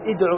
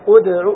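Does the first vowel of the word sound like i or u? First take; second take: i; u. First: The opening hamza is spoken with an i vowel. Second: The opening hamza is spoken with a u vowel. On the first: The speaker calls it wrong. "ما تقول ادعو إلى سبيل ربك" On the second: The speaker calls it right. "أدعو إلى سبيل ربك"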